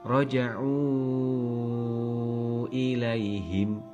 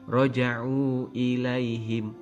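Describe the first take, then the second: First: The vowel before ilaihim is held long. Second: The vowel before ilaihim is held only briefly. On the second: "Contoh yang tidak begitu panjang"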